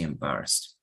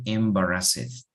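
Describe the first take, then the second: First: The -ed ending adds no extra syllable. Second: The -ed ending is said as an extra syllable. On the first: The speaker calls it right. "I would say embarrassed" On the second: The speaker calls it wrong. "we don't say embarrassed"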